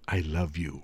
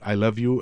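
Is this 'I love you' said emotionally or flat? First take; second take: emotional; flat. First: It is said warmly, with real feeling. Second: It is said flatly, without feeling. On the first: The speaker calls it right. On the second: The speaker calls it wrong.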